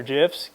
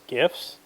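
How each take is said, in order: First: "gifs" said with a J sound; "gifs" opening as in "jam"; soft-g "gifs". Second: "gifs" said with a hard G, questioning; "gifs" opening as in "go", softer. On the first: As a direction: pronounce "gifs" like "jiffs". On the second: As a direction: pronounce "gifs" with the G of "gift". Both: Shown as a demonstration. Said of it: "Does anybody even really know".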